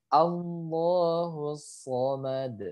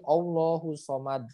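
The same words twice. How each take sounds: First: The final d is released with a bounce. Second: The final d is stopped without a bounce. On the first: The speaker calls it right. "karena berhenti dia harus dipantulkan" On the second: The speaker calls it wrong. "jangan baca lagi"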